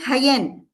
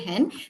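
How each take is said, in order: First: The word is broken into two separate syllables. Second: The word is blended smoothly into one syllable. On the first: The sounds were not blended together. The speaker calls it wrong. "it will become hayen" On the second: The sounds were blended together. The speaker calls it right. "they are not able to say hen"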